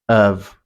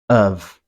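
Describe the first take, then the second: No difference in how they are said.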